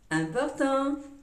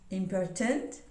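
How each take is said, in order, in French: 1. Il est prononcé avec une prononciation française. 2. Il est prononcé avec une prononciation anglaise. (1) "In French" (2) "In English"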